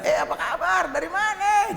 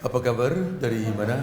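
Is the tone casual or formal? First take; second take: casual; formal. First: It is said in a casual, friendly tone. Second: It is said in a stiff, formal tone.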